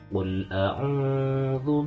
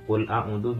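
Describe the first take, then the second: First: The u vowel is held for two beats. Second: The u vowel is cut short. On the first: The speaker calls it right. "harus dibaca panjang dua harokat" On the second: The speaker calls it wrong. "jadi jangan qul a'udzu birob"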